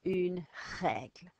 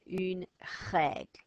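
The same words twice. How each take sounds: First: Une règle, gargled r; repeated une règle; French r. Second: Règle with a gargled French r; throaty r in règle. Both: Shown as a demonstration. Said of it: "Work very hard at getting this ch sound".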